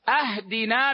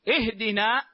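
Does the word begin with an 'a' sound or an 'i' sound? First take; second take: a; i. First: The word begins with an 'a' vowel. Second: The word begins with an 'i' vowel. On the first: It asks for a gift. The speaker calls it wrong. "أهدنا من الهدية" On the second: It asks for guidance. The speaker calls it right. "اهدنا من الهداية"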